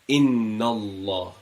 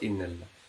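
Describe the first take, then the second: First: The l in Allah sounds heavy and full. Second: The l in Allah sounds light and thin. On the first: The speaker calls it right. "pronounce the Allah with a uh, round mouth, heavily" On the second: The speaker calls it wrong. "It's not Inna Allah"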